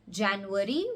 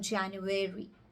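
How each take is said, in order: First: The ending is a short, reduced syllable. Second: The ending sounds like the word airy.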